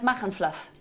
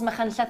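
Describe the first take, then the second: First: The name ends with a 'fluff' sound. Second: The name ends with a Welsh 'll' sound. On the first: This is how a friend mispronounces it. The speaker calls it wrong. "I've got a friend who calls Machynlleth Machynfluff" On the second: This is the real name of the town. The speaker calls it right. "it's not Machynlleth"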